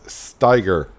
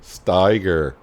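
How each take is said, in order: The two takes are said the same way.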